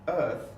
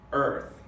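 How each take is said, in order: First: EARTH with the R silent; British non-rhotic R. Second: EARTH with the R fully sounded; strong American R. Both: Shown as a demonstration.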